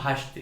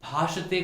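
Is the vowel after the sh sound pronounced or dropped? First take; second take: dropped; pronounced. First: The vowel after sh is dropped. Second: The vowel after sh is fully pronounced. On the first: The speaker calls it wrong. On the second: The speaker calls it right.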